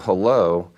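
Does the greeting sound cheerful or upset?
cheerful. The greeting sounds neutral or cheerful.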